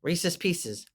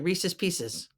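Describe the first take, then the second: Both takes have the same delivery.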